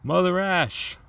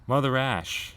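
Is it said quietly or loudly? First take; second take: loudly; quietly. First: It is said loudly. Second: It is said fairly quietly.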